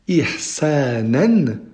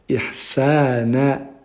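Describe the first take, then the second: First: The word ends with a final n sound. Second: The word ends with a lengthened a vowel. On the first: The sentence continues after this word. "c'est si on continue la phrase" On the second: The reader stops on this word. "si on s'arrête sur ce mot-là, on dira ihsana"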